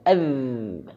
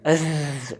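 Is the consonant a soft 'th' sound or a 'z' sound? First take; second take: th sound; z sound. First: The consonant is a soft 'th' sound. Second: The consonant is a buzzing 'z' sound. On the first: The speaker calls it right. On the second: The speaker calls it wrong. "bukan azz"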